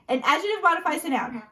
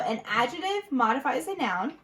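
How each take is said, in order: First: It is said quickly. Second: It is said at a normal pace.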